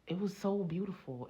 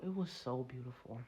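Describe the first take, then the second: First: Said in the usual way. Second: Hushed echo. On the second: Shown as a demonstration. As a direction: drop to a soft, low murmur. Repeats the line softer.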